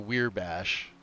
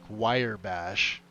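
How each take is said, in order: First: The first syllable sounds like weir. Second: The first syllable sounds like wire. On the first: "or weir bash" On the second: "I've heard people call it like wire bash"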